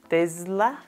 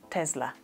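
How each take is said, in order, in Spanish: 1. La consonante del medio es un sonido z. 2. La consonante del medio es un sonido s. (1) "Algunas personas creen que se pronuncia con Z" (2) "o se pronuncia con S"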